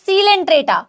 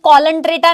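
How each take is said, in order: First: The word starts with an s sound. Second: The word starts with a k sound. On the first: The speaker calls it right. "But it is सीलेंट्रेटा" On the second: The speaker calls it wrong. "ये कॉलंट्रेटा नहीं है"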